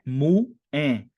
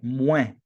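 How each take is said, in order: First: The word is split into two syllables. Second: The word is said as one syllable. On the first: The speaker calls it wrong. "não é "mu-é"" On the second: The speaker calls it right. "uma sílaba apenas"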